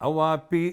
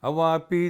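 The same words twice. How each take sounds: Both takes have the same delivery.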